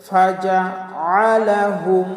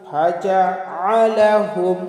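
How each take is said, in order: No difference in how they are said.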